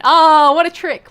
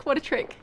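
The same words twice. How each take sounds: First: Amazed. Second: Said in the usual way. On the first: Real, not acted. Admiring the swap.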